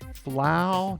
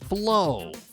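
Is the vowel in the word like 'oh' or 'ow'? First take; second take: ow; oh. First: The vowel is pronounced like 'ow'. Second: The vowel is pronounced like 'oh'. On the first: The speaker calls it wrong. "Ow. ... No, that doesn't sound right" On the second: The speaker calls it right.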